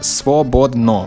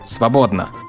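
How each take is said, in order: First: Every vowel is pronounced as a full O. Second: The unstressed vowels sound more like A. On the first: "The letters read svobodno" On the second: "every other O sounds more like an A"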